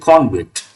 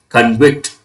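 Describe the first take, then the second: First: The stress is on the first syllable. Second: The stress is on the second syllable. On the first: The word is used as a noun. "As a noun, we have to say convict" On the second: The word is used as a verb. "As a verb, we have to say convict"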